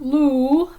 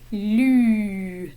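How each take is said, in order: First: The vowel is an English oo sound. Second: The vowel is the French u sound. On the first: The speaker calls it wrong. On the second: The speaker calls it right. "The French U is in this name"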